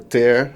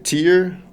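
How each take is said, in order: First: The vowel rhymes with 'air'. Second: The vowel rhymes with 'ear'. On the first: To rip something apart. "ou cortar" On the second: A drop from the eye. "pode ser lágrima"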